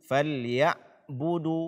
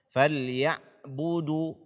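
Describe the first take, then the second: First: The 'ain sound is held tight and cut off. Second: The same.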